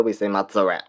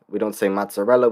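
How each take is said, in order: First: Mock the "correct" Sicilian mozzarella, clipped at the end; fake Italian pronunciation. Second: Mozzarella said with a crisp Italian ts, mots-a-rella; mock TikTok Italian saying mozzarella as mots-a-rel-la; fake Italian pronunciation. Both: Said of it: "but they're like".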